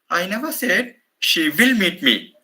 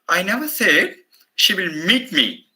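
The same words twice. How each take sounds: First: The word will carries the main stress. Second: The word meet carries the main stress. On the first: It is uncertain whether she will come. "I place the stress on the modal auxiliary" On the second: She may make contact in some other way. "the meeting is impossible"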